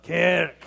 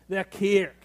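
First: Kirk with a rough throaty k and rolled r; throat-clearing kirk. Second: Said in the usual way. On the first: Shown as a demonstration. Pastor shows the Scottish kirk, throat-clearing and throaty. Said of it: "say it like you're clearing your throat". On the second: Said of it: "could you say that with me".

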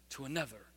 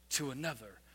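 Both takes have the same delivery.

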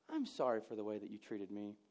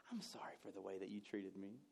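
First: Sarcastic. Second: Sarcastic apology whispered with a smirk; smug whispered non-apology. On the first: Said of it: "a sarcastic idiot". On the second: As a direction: hiss the fake apology, smug. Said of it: "get that smirk just smacked off my face". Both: Shown as a demonstration.

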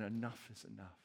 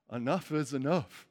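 First: Lower, much softer weary sigh; weary cry. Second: Said in the usual way. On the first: Retold or imitated. Enslaved Israelites crying out to God, softly worn down. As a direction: let it fall out like an exhausted plea. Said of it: "crying out saying". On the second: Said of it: "own frustration with thorns".

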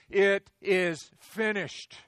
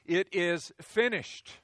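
First: Very slow, loud, booming roar; drawn-out thundering proclamation; roared like a lion. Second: Loud, drawn-out proclamation; slow, ringing cry of completion; cried out. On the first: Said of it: "he roared like a lion". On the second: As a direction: call it out from the cross. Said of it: "he cried out". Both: Acted.

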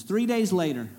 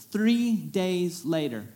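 First: Said in the usual way. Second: "three days later" said slowly, every word weighted, stress on "three"; slow down and lean on "three days later"; slow emphatic repeat. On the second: Shown as a demonstration.

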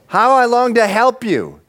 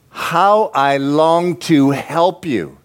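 First: High, impassioned cry; God's urgent longing. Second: Slow, drawn-out yearning; God's longing. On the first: God longs to help Israel, crying out urgently. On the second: God longs to help Israel, slow and yearning. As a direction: stretch the words out, a little higher. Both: Acted.

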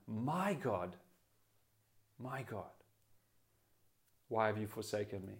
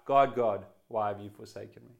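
First: Hushed, fading cry of trust; intimate cry. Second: Sharp, louder cry of abandonment; despairing cry. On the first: Preacher voicing Jesus' intimate cry from the cross, hushed. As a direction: breathe it out softly, barely there. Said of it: "he's crying out for intimacy". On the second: Preacher contrasting a despairing cry of Jesus, loud. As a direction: call out in despair, not trust. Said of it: "It would be a very different cry". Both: Retold or imitated.

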